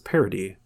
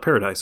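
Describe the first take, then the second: First: It is said in a French way. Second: It sounds like the English word paradise. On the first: The speaker calls it right. "it's Parody, which is French for paradise" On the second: The speaker calls it wrong. "another word I realized I was pronouncing wrong. It's not paradise"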